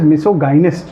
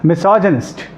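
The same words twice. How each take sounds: First: The middle part sounds like 'guy-nee', with a hard g. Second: The middle part sounds like 'jin', with a soft j. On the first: The speaker calls it wrong. "I mispronounced this word. I pronounced it as misogynist" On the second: The speaker calls it right. "It is misogynist"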